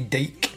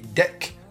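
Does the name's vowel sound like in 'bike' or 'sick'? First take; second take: bike; sick. First: The vowel is long, as in 'bike'. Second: The vowel is short, as in 'sick'. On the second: "I'm assuming that's how you pronounce it"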